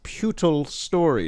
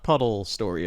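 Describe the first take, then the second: First: The first syllable sounds like 'pew'. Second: The first syllable sounds like 'puh'. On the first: The speaker calls it right. "It is pronounced" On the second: The speaker calls it wrong.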